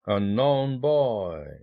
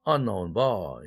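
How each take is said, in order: First: Unknown is stressed on its second syllable. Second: Unknown is stressed on its first syllable. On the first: Weak-strong-strong gives no rhythm. The speaker calls it wrong. "unknown boy 이렇게 되면은 약강강 이런 셈이죠" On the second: The stress moves forward to keep a strong-weak rhythm. The speaker calls it right. "스트레스 이동이 생깁니다. 그래서 unknown boy 이렇게 됩니다"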